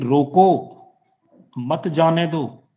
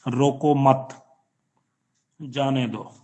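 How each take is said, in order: First: The pause comes right after 'roko'. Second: The pause comes right after 'mat'.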